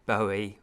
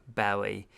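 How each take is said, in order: First: "Bowie" said BOH-ee, rhyming with Joey; "Bowie" with a long O, like the bow of a ribbon. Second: "Bowie" said BOW-ee, first syllable rhyming with cow; "Bowie" opening with an ow sound, as in bough. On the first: Showing viewers one way to say "Bowie", BOH-ee with a long O. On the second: Offering viewers the other way to say "Bowie", BOW-ee as in cow. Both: Shown as a demonstration. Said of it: "depending on how you say it".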